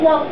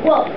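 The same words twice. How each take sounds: First: The final sound is drawn out and voiced. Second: The final sound stops short without vibration. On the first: The speaker calls it wrong. "I don't say walk. There is no continuity" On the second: The speaker calls it right. "I say walk"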